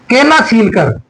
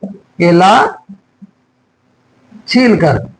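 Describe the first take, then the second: First: Said in the usual way. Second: केला stretched, long pause, then छील कर; slow dictation. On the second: Shown as a demonstration. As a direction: dictate केला छील कर in two separated pieces. Slow repeat for students writing.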